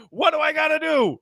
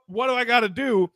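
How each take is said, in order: First: High exasperated cry for help; pitched-up imitation of a helpless star; mock frustrated plea. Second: A touch of exasperation, less pitched up; milder mock plea. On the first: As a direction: act out a fed-up player begging for answers. Retold frustrated player pleading. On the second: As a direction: repeat the question wearily. Retold frustrated player repeating.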